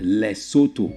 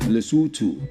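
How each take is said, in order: First: The O vowels sound like 'oh'. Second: The O vowels sound like 'ooh'. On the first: The speaker calls it wrong. "It is not pronounced Lesotho" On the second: The speaker calls it right. "all the O's you see in that name are pronounced ooh"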